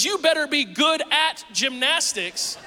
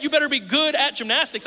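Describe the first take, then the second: First: Slow, you and gymnastics weighted, skill demanded; stress on gymnastics. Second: Good stressed as well-behaved, raised and louder; mean good as behave yourself. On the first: How son heard father's warning, slow stressed gymnastics. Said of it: "what he heard was". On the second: Pastor explains meaning to congregation, stressing good. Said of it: "I meant you better be good". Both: Shown as a demonstration.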